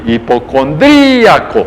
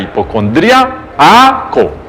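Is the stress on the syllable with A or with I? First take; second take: I; A. First: The stress falls on the syllable with I. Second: The stress falls on the syllable with A. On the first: "parece que no es con tilde la I" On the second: "con tilde en la A"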